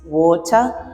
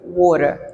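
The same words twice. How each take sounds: First: A British accent with a clear t sound. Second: An American accent with the t like a d. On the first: "a British would pronounce it like this" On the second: "an American would pronounce it like water"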